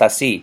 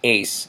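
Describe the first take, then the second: First: It is said with two syllables, a-SÍ. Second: It is said with one syllable, like ace. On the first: The speaker calls it right. "is pronounced ASI" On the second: The speaker calls it wrong. "the expectation is to pronounce it ACE"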